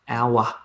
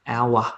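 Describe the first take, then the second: First: It is said in an Australian accent. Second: The same.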